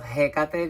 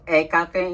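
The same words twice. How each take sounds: First: The word begins with an H sound. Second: The word begins without an H sound. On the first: It follows English pronunciation. "like in English it's pronounced" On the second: It follows Spanish pronunciation. "I sometimes says Hecate instead of Hecate because of Spanish"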